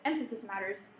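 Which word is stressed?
emphasis. The stress falls on the word emphasis.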